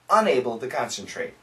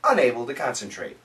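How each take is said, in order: First: It is spoken at a slow pace. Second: It is spoken at a faster pace. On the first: "Say it with me slowly" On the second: "Let's say it faster, faster this time"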